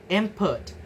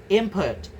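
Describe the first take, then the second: The two takes are said the same way.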